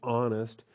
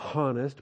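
First: The word starts with a closure of the throat. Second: The word starts with an audible h sound. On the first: The speaker calls it right. "with a closed throat to start the ah sound" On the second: The speaker calls it wrong. "You don't say honest"

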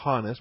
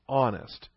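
First: The word begins with an audible h sound. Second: The word begins with a closed-throat glottal catch. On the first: The speaker calls it wrong. "we spell it with an H, but we don't pronounce it honest" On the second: The speaker calls it right. "We started with our throat closed when we said the word honest"

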